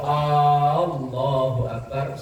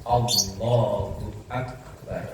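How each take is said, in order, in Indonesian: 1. Huruf vokal pertama pada Allah dibaca panjang. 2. Huruf vokal pertama pada Allah dibaca pendek. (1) "Kalau Allahu Akbar salah besar, itu artinya seakan-akan mempertanyakan" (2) "Maka bacanya harus Allahu Akbar"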